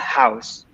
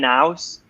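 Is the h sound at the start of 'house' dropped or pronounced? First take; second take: pronounced; dropped. First: The h sound at the start is pronounced. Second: The h sound at the start is dropped. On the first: The speaker calls it right. "in English, we usually pronounce that H" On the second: The speaker calls it wrong. "maybe you could say an house, which is a very Italian way of saying it"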